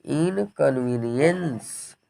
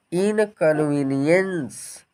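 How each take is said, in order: First: इनकन्वीनियंस repeated slowly and softer, in-kən-vee-nee-yəns; careful pronunciation. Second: इनकन्वीनियंस said slowly, syllable by syllable: in-kən-vee-nee-yəns; careful pronunciation. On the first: Teacher repeating इनकन्वीनियंस for learners to echo. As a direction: say इनकन्वीनियंस again, slow and soft, syllable by syllable. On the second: Teacher sounding out इनकन्वीनियंस syllable by syllable. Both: Shown as a demonstration. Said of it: "ध्यान दीजिए क्या पढ़ेंगे?".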